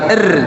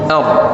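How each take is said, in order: First: The r-sound is thin, with an 'e' vowel. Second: The r-sound is thick, with an 'o' vowel. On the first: The speaker calls it wrong. "bukan er" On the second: The speaker calls it right. "tapi or, tebelin"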